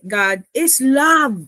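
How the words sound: The word love carries the stress.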